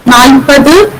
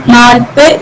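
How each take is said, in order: First: Nalpadu with final du sounded; standard Malayalam form. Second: Nalpa with the du dropped; Kartanadan dialect form. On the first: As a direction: say Nalpadu in full. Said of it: "in standard Malayalam". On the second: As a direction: stop after pa in nalpa. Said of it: "du gets deleted here". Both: Shown as a demonstration.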